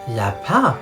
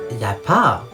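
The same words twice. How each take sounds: The two takes are said the same way.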